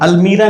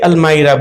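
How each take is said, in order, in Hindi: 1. दूसरा स्वर 'ee' जैसा बोला जाता है। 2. दूसरा स्वर 'eye' जैसा बोला जाता है। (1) "अल्मीरा नहीं बोलते" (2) "अल्मायरा बोलते हैं"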